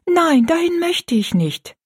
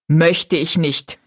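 First: Put-on high, pleading girl's refusal; hasty protest. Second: Scornful repeat. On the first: Rosalie begs not to go, high protest. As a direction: plead against it in a much higher voice. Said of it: "sagte Rosalie rasch". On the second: Stepmother echoes Rosalie's refusal, slow and scornful. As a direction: throw the words back slowly. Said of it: "wiederholte Frau Joyce". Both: A narrator's reading.

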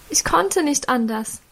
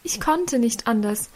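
First: KONNTE hoch betont, leicht erstickt; tearful assurance. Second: KONNTE leiser betont, verhallend; softer tearful repeat. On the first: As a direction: beteuere unter Tränen, dass du nicht anders konntest. (unter Tränen beteuernd) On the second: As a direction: wiederhole es leise, fast gebrochen. (leise unter Tränen wiederholt) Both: A narrator's reading. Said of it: "versicherte Mutter noch einmal unter Tränen".

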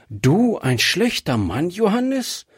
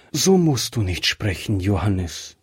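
First: Johannes rising sharply high in disbelief; wife, doubting he was ever bad, asks in surprise; incredulous question. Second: Johannes falling low and heavy, close to weeping; wife, near tears, pleads with her dying husband. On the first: Wife asks incredulously, voice rising high on Johannes. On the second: Acted. Wife pleads sadly, Johannes sinking low. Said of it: "und fing an zu weinen".

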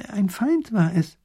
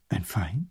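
First: High, slow, drawn-out declaration; slow, high professor's pronouncement; grave revelation. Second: Low, quiet echoing question; low, puzzled query; hushed disbelief. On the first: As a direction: reveal a culprit slowly and weightily. Professor reveals his theory. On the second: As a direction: repeat it softly as a question. Ruler echoes in disbelief. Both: A narrator's reading.

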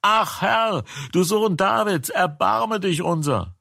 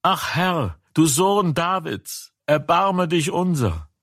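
First: Higher still, desperate pleading cry; the same plea, pitched even higher with more urgency. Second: High, pleading cry for mercy. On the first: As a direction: push the plea further up, begging harder. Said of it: "Aber sie schrien noch mehr". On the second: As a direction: call out to him begging, pitched high. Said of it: "schrien sie und sprachen". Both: A narrator's reading.

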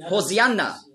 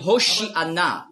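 First: "Hosianna" with s standing in for sh; Greek pronunciation. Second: "Hoshi'ana" with sh rather than s; Hebrew pronunciation. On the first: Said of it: "gibt es eben ein S für Sch". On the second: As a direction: say "Hoshi'ana" with a clear sh. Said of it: "Auf Hebräisch sagt man". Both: Shown as a demonstration.

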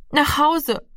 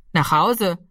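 First: Hoher, eiliger Ausruf eines Jungen; schneller Ausruf. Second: Ruhiges Echo in normaler Stimmlage; nachfragender Polizist. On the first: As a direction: rufe es schnell, deutlich höher. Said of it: "rief Rami schnell". (schnell und hoch gerufen) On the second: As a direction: als Polizist nüchtern nachfragen. Polizist wiederholt Ramis Antwort. (sachlich wiederholte Rückfrage) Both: A narrator's reading.

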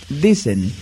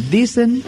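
First: Said in the usual way. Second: "dicen" pitched high and set apart by pauses; isolated, emphatic high "dicen"; stress on DICEN. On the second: Real, not acted. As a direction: lift "dicen" sharply in pitch to underline it. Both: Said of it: "recalco la palabra dicen".

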